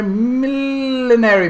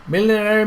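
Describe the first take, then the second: First: Drawn out slow and high, millinery; savoured word. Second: Said in the usual way. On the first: Shown as a demonstration. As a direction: stretch millinery out slowly, relishing each syllable. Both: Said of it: "saying millinery over and over".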